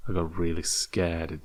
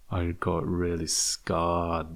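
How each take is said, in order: First: Said in the usual way. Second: "scarred" drawn out slowly as "scaahd", no r; slow down and stretch "scarred" into a long open ah; exaggerated broad vowel. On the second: Shown as a demonstration. Exaggerated vowel joke on scared.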